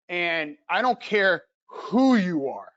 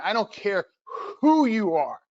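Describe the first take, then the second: First: Slow, deliberate "I don't care who you are" with weight on "who"; measured emphasis on "who"; slow emphatic. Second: Repeated with more force on "who"; stronger emphasis. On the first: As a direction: lean into "who" and draw the line out. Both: Shown as a demonstration. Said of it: "emphasize that again".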